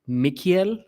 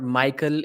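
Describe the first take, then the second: First: The name is pronounced the Czech way. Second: The name is pronounced the usual English way. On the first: The speaker calls it right. "since that is the Czech Republic" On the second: The speaker calls it wrong. "it's not Michael"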